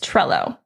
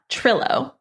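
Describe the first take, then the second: First: The first syllable sounds like 'trell'. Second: The first syllable sounds like 'trill'. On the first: The speaker calls it right. "It's Trello" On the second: The speaker calls it wrong. "It's not Trillo. Don't say that"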